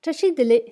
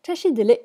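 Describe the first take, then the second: First: "Chachidele" said high and firm as a model; Tibetan greeting. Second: "Chachidele" said firm with a falling end; Tibetan greeting reply. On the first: Teacher voices first speaker's greeting, clear model. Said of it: "la première qui dit". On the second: Teacher voices second speaker's reply, clear model. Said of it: "auquel on répond". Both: Shown as a demonstration.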